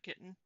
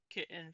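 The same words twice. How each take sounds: First: The middle T sound is clearly pronounced. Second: The middle T sound is dropped.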